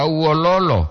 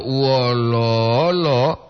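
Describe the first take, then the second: First: Uololo said quickly with even short syllables; short vowels. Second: Uololo with the middle lo held long; drawn-out vowel. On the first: Teacher showing listeners the intonation difference, uololo kept short. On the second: Teacher showing listeners the intonation difference, uololo drawn out. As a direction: stretch the second-to-last vowel of uololo. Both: Shown as a demonstration. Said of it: "supaya jelas perbedaan".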